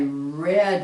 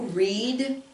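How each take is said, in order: First: The vowel is a short E sound. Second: The vowel is a long E sound. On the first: It is the past form. "This one sounds just like the word, which most of you know, the color red" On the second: It is the present form. "this one would be an E sound, a long E"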